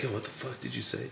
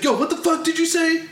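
First: Hushed, very soft imitated challenge; retold confrontation in a near whisper; whispered threat. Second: High-pitched mock outrage; imitated angry gamer, pitched way up; indignant comeback. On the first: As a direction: say it under your breath, right in his face. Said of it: "Did he whisper it like this?". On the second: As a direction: fire it back as an offended challenge. Retelling angry player's loud comeback.

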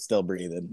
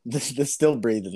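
First: Flat, low deadpan reply; monotone. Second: Said in the usual way. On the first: Shown as a demonstration. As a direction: say it flatly, no feeling. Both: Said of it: "I keep it monotone".

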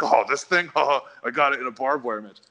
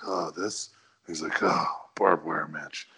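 First: Mock boastful, pitched up with a laugh; proud. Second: Low, subdued, dismissive mumble; not proud. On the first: How the wrestler did not answer about his scar, proud. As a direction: show off the scar, chuckling proudly. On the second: Wrestler playing down his scar when asked, not proud. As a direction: shrug it off in a deep, slow voice. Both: Shown as a demonstration. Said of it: "he didn't sound proud of it".

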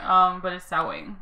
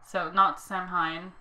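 First: "Samhain" said as sow-win; "Samhain" pronounced sow-in, Gaelic way; correct pronunciation. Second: "Samhain" said like it's spelled, slowly; "Samhain" pronounced sam-hain; wrong pronunciation. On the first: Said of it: "That's how you say it". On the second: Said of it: "like some other people". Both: Shown as a demonstration.

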